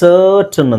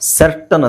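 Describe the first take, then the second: First: The first vowel sounds like 'ur'. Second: The first vowel sounds like 'eh'. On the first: The speaker calls it right. "ಸರ್ಟನ್ ಅಂತ ಹೇಳ್ತೀವಿ" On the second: The speaker calls it wrong. "ಸರ್ಟನ್ ಅಂತ ಹೇಳಲ್ಲ"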